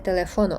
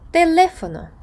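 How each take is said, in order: First: The stress falls on a different syllable. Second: The stress is on the second syllable. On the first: The speaker calls it wrong. "а не" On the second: The speaker calls it right. "графічний наголос ... вимовляємо слово так, як пишеться"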